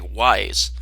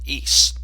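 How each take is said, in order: First: The word sounds like 'wise'. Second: The word does not sound like 'wise'. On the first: The speaker calls it wrong. "It looks like it should say Wise" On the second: The speaker calls it right. "I guess it's pronounced Ys"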